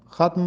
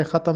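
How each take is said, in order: First: ختم said as one syllable, "khatm"; teacher's ختم with no vowel between t and m; ختم closed tight, "khatm"; correct pronunciation. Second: ختم split into two syllables, "kha-tam"; the mistaken ختم with an extra vowel before m; ختم said loosely as "khatam"; wrong pronunciation. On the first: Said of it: "ختم پڑھنا چاہیے". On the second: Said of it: "نہیں پڑھنا چاہیے". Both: Shown as a demonstration.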